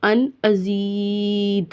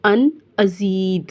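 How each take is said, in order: First: अन अजीद with the ee held very long; lengthened vowel. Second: अन अजीद said slowly with a clear ee; moderately long ee in अजीद; model recitation. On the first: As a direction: stretch the ee in अजीद out slowly. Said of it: "थोड़ा आपने लंबा कर लेना है". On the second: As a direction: say अन अजीद with a small gap between words. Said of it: "आपने ऐसे पढ़ना है". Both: Shown as a demonstration.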